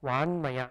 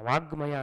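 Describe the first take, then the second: First: A nasal n sound comes before maya. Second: A hard g sound comes before maya. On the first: The speaker calls it right. "ವಾನ್ಮಯ ಅಂತ ಕರಿತೀವಿ" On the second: The speaker calls it wrong. "ವಾಗ್ಮಯ ಅನ್ನಲ್ಲ"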